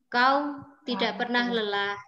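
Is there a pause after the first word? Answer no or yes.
yes. There is a short pause after the first word. The speaker calls it right. "cara membacanya seperti ini"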